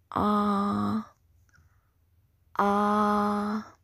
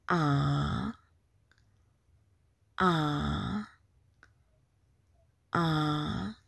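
First: "ah" held long on one even pitch; high level tone. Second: "Ah" long, sinking low then rising; falling-rising tone. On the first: Teacher demonstrates first tone, "ah" steady and level. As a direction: sustain "ah" perfectly level. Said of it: "The first tone is very high level". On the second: Teacher demonstrates second tone, "Ah" falling then rising. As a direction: dip "Ah" down and sweep it up. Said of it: "The second tone is the falling rising tone". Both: Shown as a demonstration.

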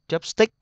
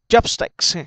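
First: Chopstick with stick rising at the end; mistaken stress on STICK. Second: Chopsticks with CHOP high and loud; stress on first syllable. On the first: Retold or imitated. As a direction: imitate learners tipping chopstick up on STICK. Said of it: "nghe cái chữ stick giống như có dấu sắc". (đọc chopstick lên giọng ở stick) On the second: Shown as a demonstration. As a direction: punch CHOP, let sticks drop in Chopsticks. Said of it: "D nhấn âm một nha". (nhấn cao âm một Chopsticks)

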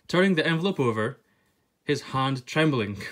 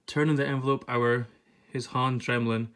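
First: TURNING THE ENVELOPE OVER in standard English, fully sounded words; standard English translation. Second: TURNING THE ENVELOPE OUR read in Scots, "over" said as "ower". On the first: Translating the Scots line for viewers, in careful standard English. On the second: Reading the Scots book aloud to viewers, in Scots pronunciation. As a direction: say HIS HAND TREMBLING in Scots, dropping sounds in "hand" and "trembling". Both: Shown as a demonstration. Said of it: "I'm gonna be the translator for this".

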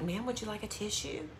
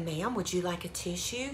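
First: Softly whispered offer; imitating a whispering clerk. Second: Retold hushed offer, softly; quietly, like a discreet shop clerk; imitating a discreet hushed clerk. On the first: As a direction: hush it like a discreet shop clerk. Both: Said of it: "She kinda whispered it".

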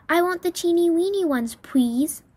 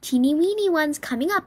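First: Put-on high, wheedling child voice; little girl. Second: High, perky waitress chirp. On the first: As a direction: plead like a spoiled little girl. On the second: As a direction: chirp it with a rising end. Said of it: "I chirped". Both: A narrator's reading.

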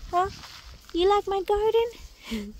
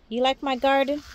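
First: Slow high doggy voice asking the dog; cooing pet talk. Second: Said in the usual way. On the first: Real, not acted. Asking her dog again.

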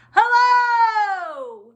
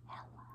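First: Long, high, full shout; as loud as possible. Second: Tiny whispered greeting; as quiet as possible. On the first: Teacher showing children opposite hellos, as loud as possible. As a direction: holler the greeting and hold it. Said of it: "as loud as we can". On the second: Teacher showing children opposite hellos, as quiet as possible. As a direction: whisper it so it barely carries. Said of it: "as quiet as we can". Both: Shown as a demonstration.

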